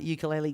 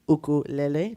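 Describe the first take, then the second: First: It has the common everyday English pronunciation. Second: It has the traditional, original pronunciation.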